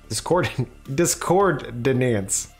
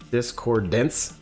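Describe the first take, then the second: First: The last word has the vowel of dance. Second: The last word has the vowel of dense. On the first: "I'm saying dance" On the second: "you went with dense"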